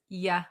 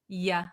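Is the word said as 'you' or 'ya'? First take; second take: ya; ya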